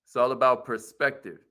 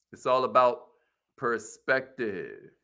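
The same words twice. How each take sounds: First: Said in the usual way. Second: Drawn-out, quieter second half, perspective stretched slowly; slowed emphasis. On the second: Shown as a demonstration. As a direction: let perspective sink in slowly. Repeating motto for emphasis.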